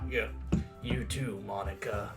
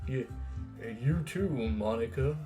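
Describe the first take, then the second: First: It is said as a Master Chief impression. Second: It is said in a plain voice.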